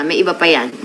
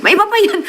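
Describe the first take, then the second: First: Said in the usual way. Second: The same line again, much higher and teasing; a sing-song high-pitched echo of the first take; playful high repeat. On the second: Pretend. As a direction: tease it up high.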